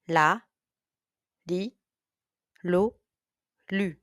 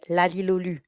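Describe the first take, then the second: First: The syllables are said at a fast pace. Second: The syllables are said at a very fast pace. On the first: "A little bit faster now" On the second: "And even faster"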